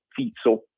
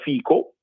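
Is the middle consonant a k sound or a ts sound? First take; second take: ts sound; k sound. First: The middle consonant is a ts sound. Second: The middle consonant is a hard k sound. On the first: The speaker calls it right. "si pronuncia Fizzo" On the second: The speaker calls it wrong. "si scrive Fico"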